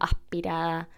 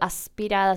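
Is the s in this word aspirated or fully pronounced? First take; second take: aspirated; full. First: The s is softly aspirated. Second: The s is fully pronounced. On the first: "sino aspirada. Es el mismo fenómeno" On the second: "tampoco digo"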